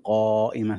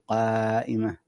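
First: The long vowel is heavy and full-mouthed. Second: The long vowel is light and thin. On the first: The speaker calls it wrong. "لا تفخمها، ما تقول قائمة" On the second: The speaker calls it right. "تقول قائمة"

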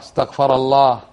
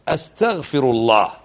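First: The verb is said in its past form, istaghfara. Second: The verb is said in its present form, astaghfiru. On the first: God is the one asking forgiveness, in the past. The speaker calls it wrong. "ولا تقول استغفر الله استغفر الله، خطأ" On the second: The speaker asks God for forgiveness. The speaker calls it right. "أنت تقول إيش؟ أستغفر الله"

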